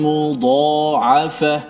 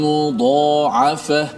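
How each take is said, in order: Both takes have the same delivery.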